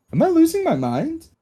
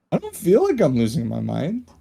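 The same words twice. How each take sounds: First: High, alarmed question; panicked. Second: Said in the usual way. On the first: Acted. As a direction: ask it in a rising panic. Panicked player asks table.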